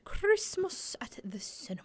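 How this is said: It is said in a put-on British accent.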